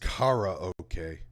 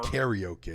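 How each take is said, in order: First: The word begins with an open 'kah-rah' sound. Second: The word begins with a 'carry' sound. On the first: The speaker calls it right. "It's supposed to be pronounced karaoke" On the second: The speaker calls it wrong. "not not karaoke"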